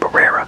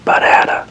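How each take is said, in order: First: The middle R sounds like a plain R. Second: The middle R sounds like a D.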